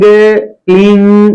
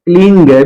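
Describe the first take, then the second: First: It ends in a nasalized vowel, no consonant. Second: It ends with an added g sound. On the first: The speaker calls it right. "बस यही अटक जाएगा" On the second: The speaker calls it wrong. "Clean ग भी नहीं है"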